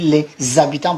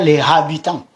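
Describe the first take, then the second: First: The h is swallowed, with a linking z. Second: The h is sounded, with no linking z. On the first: The speaker calls it right. "on l'avale" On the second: The speaker calls it wrong. "On ne dit pas"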